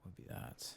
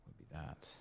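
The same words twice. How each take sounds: The two takes are said the same way.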